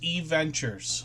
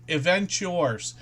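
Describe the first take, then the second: First: It begins with a separate 'ee', then 'ventures'. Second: It begins with the word 'event', then 'yours'. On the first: The speaker calls it right. "it's E Ventures" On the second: The speaker calls it wrong. "I keep um, pronouncing that incorrectly"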